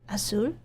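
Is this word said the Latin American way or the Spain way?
Latin American. It is said the usual Latin American way.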